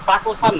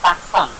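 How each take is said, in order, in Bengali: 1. শব্দটি মাঝের স্বরটি পুরোপুরি উচ্চারণ করে বলা হয়। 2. শব্দটি মাঝের স্বরটি বাদ দিয়ে বলা হয়। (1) "টাকোসান না" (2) "এটার উচ্চারণ হবে তাকসান"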